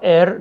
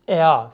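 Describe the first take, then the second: First: It ends with a clear r sound. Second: It ends in a vowel with no r sound. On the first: The speaker calls it wrong. "خیلی از دوستان به اشتباه ار تلفظش میکنن" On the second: The speaker calls it right. "ضمیر بعدی ا هستش"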